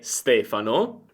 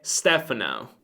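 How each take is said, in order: First: The name is said with an Italian accent. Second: The name is said with a strong American accent. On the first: "ma è Stefano" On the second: "c'è un forte accento americano"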